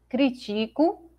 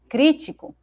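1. O acento cai numa sílaba posterior. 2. O acento cai na primeira sílaba. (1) "aqui nós tínhamos a palavra critico" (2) "aqui nós temos a palavra crítico"

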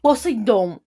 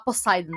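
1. O nome é falado com pronúncia portuguesa. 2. O nome é falado com pronúncia inglesa. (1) "Olha a entonação. Olha que nome poderoso" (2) "quem fala os nomes em inglês"

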